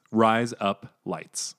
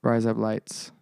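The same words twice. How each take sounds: First: "Rise Up Lights" run together slowly so it sounds like "razor blades"; "Rise Up Lights" blended into "razor blades", Aussie style; Australian accent. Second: "Rise up lights" said slowly as three separate words; sounding out. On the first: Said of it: "It's like saying razor blades". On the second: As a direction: spell out "Rise up lights" word by word. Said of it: "say them all together". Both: Shown as a demonstration.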